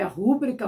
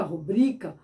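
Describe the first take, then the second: First: Rúbrica with stress on the first syllable, RU-brica; wrong stress rúbrica. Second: Rubrica with stress on the second-to-last syllable, ru-BRI-ca; correct rubrica. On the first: Teacher shows the wrong form rúbrica, stressed on RU. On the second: Teacher gives the correct form rubrica, stressed on BRI. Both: Shown as a demonstration. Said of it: "como eu coloquei, é, quando usamos".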